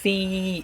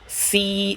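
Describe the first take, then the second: First: It begins with a th sound. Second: It begins with a plain s sound. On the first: The speaker calls it right. "ज़बान की नोक को सामने वाले दांतों से लगाएंगे" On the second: The speaker calls it wrong. "सीन के तरीके से नहीं पड़ेगा कि सी ऐसे नहीं"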